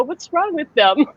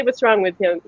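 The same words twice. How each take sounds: First: A higher, slower "wrong" that rises; puzzled child. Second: Said in the usual way. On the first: Retold or imitated. Son wondering about unresponsive kids, higher and slower. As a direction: ask "What's wrong with them?" slowly, like an innocent toddler. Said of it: "he'd go". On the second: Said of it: "He never would say".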